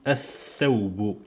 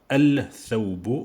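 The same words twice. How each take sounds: First: The L is silent, merged into the next consonant. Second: The L of the article is clearly pronounced. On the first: The speaker calls it right. "je dis al-thawbu" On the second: The speaker calls it wrong. "Je ne dis pas al-thawbu"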